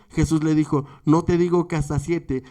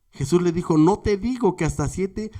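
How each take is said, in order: Both takes have the same delivery.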